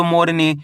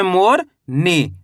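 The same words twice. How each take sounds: First: मोरनी as one unbroken word, falling at the end; parts joined. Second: मोर, pause, then नी on its own; split in two parts. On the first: Teacher joins both parts for pupils, मोरनी said as one word. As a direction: run मोर straight into नी with no pause. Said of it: "दोनों को मिला दे तो". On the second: Teacher shows pupils how to read long words, मोर and नी apart. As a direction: break the word after मोर and say नी separately. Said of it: "उसको इस तरीके से आप पढ़ सकते हो". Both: Shown as a demonstration.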